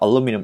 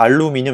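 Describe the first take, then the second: First: It is said with an English-style pronunciation. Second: It is said with Korean-style syllables. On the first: The speaker calls it right. "알루미늄 이렇게 얘기하죠" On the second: The speaker calls it wrong. "발음상 우리가 알루미늄 이렇게 얘기 안 하죠"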